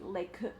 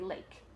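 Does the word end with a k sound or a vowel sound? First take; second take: vowel sound; k sound. First: An extra vowel sound follows the final k. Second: The word ends cleanly on the k sound. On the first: The speaker calls it wrong. "We don't say lake" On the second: The speaker calls it right. "we just say lake"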